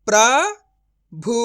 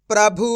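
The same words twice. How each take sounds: First: प्रभु broken as "pra... bhu", with a long pause; syllable by syllable. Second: प्रभु joined as "prabhu"; blended whole word. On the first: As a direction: sound out प्रभु very slowly in two parts. (प्रभु को "प्र... भु" तोड़कर धीरे बोलें) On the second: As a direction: read प्रभु in one go without a break. (प्रभु को जोड़कर एक साथ बोलें) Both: Shown as a demonstration. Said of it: "direct मात्रा का उच्चारण करके पढ़ेंगे".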